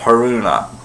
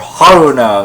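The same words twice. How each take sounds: First: The stress falls after the first syllable. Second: The stress is on the first syllable. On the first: The speaker calls it right. "instead of" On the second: The speaker calls it wrong. "stress the first syllables"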